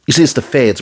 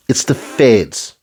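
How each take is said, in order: First: Said in the usual way. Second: "It's the feds" said slowly, every word weighted; slow and deliberate. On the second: Shown as a demonstration.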